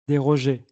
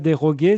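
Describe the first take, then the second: First: The g is soft, like 'zh'. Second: The g is hard, as in 'go'. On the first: The speaker calls it right. "après le G, il y a un E, donc J" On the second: The speaker calls it wrong. "Si fuera déroguer, sería con G U"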